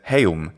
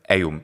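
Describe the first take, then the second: First: The word begins with an h sound. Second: The word begins directly with a vowel. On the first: The speaker calls it wrong. "He says heum" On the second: The speaker calls it right. "instead of eum"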